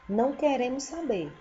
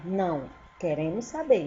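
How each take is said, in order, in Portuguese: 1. Continua sem pausa depois de não. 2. Há uma pausa logo depois de não.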